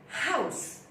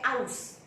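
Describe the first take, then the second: First: The word starts with a clear h sound. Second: The word starts without an h sound. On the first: The speaker calls it right. "You say house, h" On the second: The speaker calls it wrong. "You do not say house"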